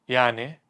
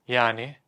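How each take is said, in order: Both takes have the same delivery.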